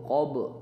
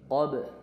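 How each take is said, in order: First: The b sound is heavy and thick. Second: The b sound is light and bouncing. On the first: The speaker calls it wrong. "bukan baknya tidak tebal" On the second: The speaker calls it right. "jadi baknya tipis, mantul dan tipis"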